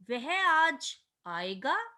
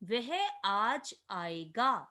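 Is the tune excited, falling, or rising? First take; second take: rising; falling. First: It ends with a rising question tune. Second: It ends with a plain falling statement tune. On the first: Asking whether he will come today. "प्रश्नवाचक" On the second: A simple statement that he will come today. "साधारण कथन"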